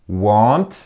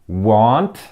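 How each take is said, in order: The two takes are said the same way.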